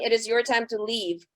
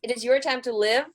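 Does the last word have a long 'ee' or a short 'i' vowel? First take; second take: long ee; short i. First: The last word has a long 'ee' vowel. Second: The last word has a short 'i' vowel. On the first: The speaker calls it wrong. "I actually sing" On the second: The speaker calls it right. "The song is called"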